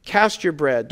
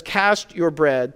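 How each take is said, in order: First: Said in the usual way. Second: Slow scripture quote. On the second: Shown as a demonstration. Pastor quoting Ecclesiastes to the congregation, slow and weighty. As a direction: Cast drawn out slowly and weightily, each word given room. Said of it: "rather, says".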